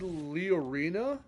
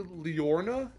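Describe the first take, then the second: First: The name is said with an 'ee' sound. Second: The name is said without the 'ee' sound. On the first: This follows the spelling. "it's spelled as if it's supposed to be said Leorina" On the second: This is how most people say it. "people say Leorna and they just take the I out"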